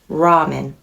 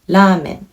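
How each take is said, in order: First: It is said with an English r sound. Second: It is said with a Japanese r sound. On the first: "for English speakers, you might say" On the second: "This is how Japanese people will pronounce it"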